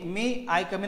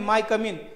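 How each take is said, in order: First: The first word sounds like 'may'. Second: The first word sounds like 'my'. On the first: The speaker calls it right. "त्याचा उच्चार आहे मे" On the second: The speaker calls it wrong. "मे आय कम इन नाही म्हणते माय कम इन"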